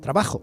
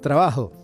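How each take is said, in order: First: The j is a harsh sound from the throat. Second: The j is a soft, breathy h sound. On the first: It sounds like Madrid or northern Spain. "casi como lo pronunciaría cualquier castellano" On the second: The speaker is from parts of Andalusia. "hacen sonar ese sonido de la J de forma aspirada"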